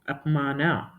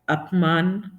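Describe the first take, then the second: First: The word ends with a full final a vowel. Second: The word ends on a consonant, vowel cut short. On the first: This is the Kannada form. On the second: This is the Hindi form.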